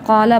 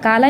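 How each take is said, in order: First: The long vowel is full and heavy. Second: The long vowel is thin and light. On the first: The speaker calls it right. "बल्कि क़ाला पढ़ेंगे" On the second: The speaker calls it wrong. "इनको हम काला नहीं पढ़ेंगे"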